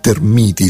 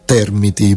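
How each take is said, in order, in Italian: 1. L'accento è spostato dalla prima sillaba. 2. L'accento è sulla prima sillaba.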